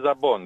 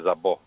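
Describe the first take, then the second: First: The word ends with an n sound. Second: The word ends on a vowel, no n. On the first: The speaker calls it right. "Το ζαμπόν το λέμε ζαμπόν" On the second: The speaker calls it wrong. "δεν το λέμε ζαμπό"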